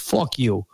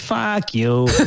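First: It is said in a New York accent. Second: It is said in a Wisconsin accent. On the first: "In New York, you say fuck like this" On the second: "in Wisconsin, you say it like this"

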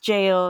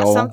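First: It is said exactly like the word jail. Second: It is said the way it is spelled. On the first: The speaker calls it right. "it's just pronounced jail" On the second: The speaker calls it wrong. "something like that, because it's spelled G-A-O-L"

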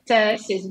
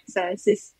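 First: The word begins with a ts sound. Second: The word begins with a plain s sound. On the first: The speaker calls it right. "the first letter C in Latvian, it's te, so I will say tesis" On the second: The speaker calls it wrong. "you're saying it with S like tesis"

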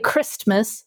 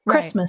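First: The t sound is pronounced. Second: The t sound is silent. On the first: The speaker calls it wrong. "You don't say Christmas" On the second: The speaker calls it right. "it's Christmas"

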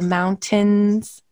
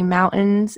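First: The middle T is clearly and fully pronounced. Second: The middle T is dropped, not clearly pronounced. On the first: This is the standard way to say it. "instead of mountains" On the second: This is how people from Utah say it. "we don't enunciate our T's as well. Like we say mountains"

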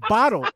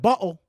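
First: The T sound is clearly pronounced. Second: The T sound is dropped, British style. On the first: The speaker checks what was meant. "You mean bottle?" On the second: Someone else said it. "He said bottle"

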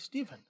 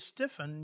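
First: The middle consonant sounds like a v. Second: The middle consonant sounds like an f. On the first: The speaker calls it right. "You have to say Stephen" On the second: The speaker calls it wrong. "you can't say Stephen"

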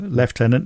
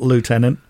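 First: The word is said with a British pronunciation. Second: The word is said with a non-British pronunciation. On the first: The speaker calls it right. "British pronunciation? ... Lieutenant" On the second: The speaker calls it wrong. "not lieutenant"

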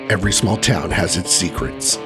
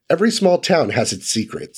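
First: It is read in a put-on character voice. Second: It is read in a natural speaking voice.

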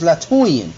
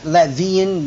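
First: The middle is said with a U sound. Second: The middle is said with a V sound. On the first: The speaker calls it right. "the real name is Latuian" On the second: The speaker calls it wrong. "Not Latvian"

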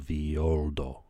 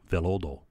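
First: The double L is said as a Y sound. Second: The double L is said as an L sound. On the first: "two L's is a Y, right? So Violdo" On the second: "Violdo in English"

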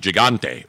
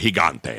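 First: The word is said with an English pronunciation. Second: The word is said with a Spanish pronunciation. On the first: "the Gigante" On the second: "as I like to say, because I love Don Francisco when he used to host Sabado Gigante"

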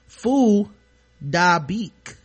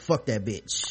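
First: The name is said with its Vietnamese pronunciation. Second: The name is read like English words. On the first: This is how the name is really said. The speaker calls it right. "whose correct pronunciation is actually" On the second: This is how the spelling looks to English readers. The speaker calls it wrong. "It just looks like"

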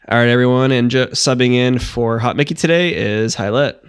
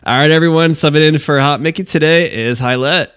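First: It is said without a smile in the voice. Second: It is said with a smile in the voice.

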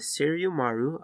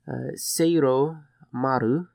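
First: The name is pronounced sloppily and unclearly. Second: The name is pronounced carefully and clearly. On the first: The speaker calls it wrong. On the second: The speaker calls it right.

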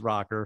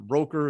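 First: The name is said like 'Rocker'. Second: The name is said like 'Roker'. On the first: The speaker calls it right. "This is Rocker" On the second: The speaker calls it wrong. "it's not like Al on the Today Show"

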